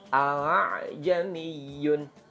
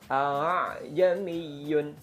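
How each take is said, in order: No difference in how they are said.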